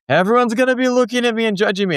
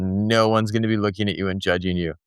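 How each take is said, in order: First: Put-on high, rushed child's protest; worried kid impression, high and racing; imitating worried daughter. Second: Low, level parental reply; retold parent calming a child, pitched low; reassuring parent. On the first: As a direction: mimic a fretting kid, pitched way up and fast. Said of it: "and she was like". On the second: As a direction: bring it down, softer and matter-of-fact. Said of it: "and I said".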